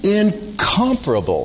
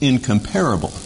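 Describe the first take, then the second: First: The stress is on the second syllable. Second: The stress is not on the second syllable. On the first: The speaker calls it right. "Emphasis on the second syllable" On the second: The speaker calls it wrong. "you might think that this word is pronounced incomparable"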